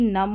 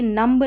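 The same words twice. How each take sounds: First: नम ending on m, no b; silent b. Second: नम्ब with the final b wrongly sounded; mispronounced नम्ब. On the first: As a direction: close नम on the m. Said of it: "नम्ब नहीं". (नम, बिना ब के) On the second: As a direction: voice the b ending नम्ब. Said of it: "नम होगा". (नम्ब में ब बोलकर ग़लत उच्चारण) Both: Shown as a demonstration.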